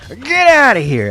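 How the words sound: It is said in an emphatic put-on character voice.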